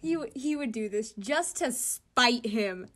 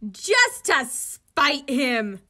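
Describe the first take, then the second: First: Said in the usual way. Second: Much louder and slowly drawn out, every word leaned on; emphatic retake. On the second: Shown as a demonstration. Vlogger retaking the line about spite, loud and slow. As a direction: hammer each word slowly and loudly. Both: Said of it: "Just, yeah, just".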